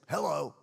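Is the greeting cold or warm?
cold. The greeting sounds cold and unfriendly. The caller is someone disliked. "they really don't like them and they say"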